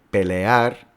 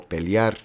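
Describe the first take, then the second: First: "pelear" said as three syllables, pe-le-ar, slowly; teacher spells out each vowel of "pelear"; careful three syllables. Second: "pelear" said as "peliar", e turned to a y glide; teacher gives the popular two-syllable "pelear"; everyday two syllables. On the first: Teacher shows class the careful three-syllable "pelear". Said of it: "que tiene tres sílabas". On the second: Teacher imitates how people commonly say "pelear". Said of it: "la gente pronuncia como pelear". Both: Shown as a demonstration.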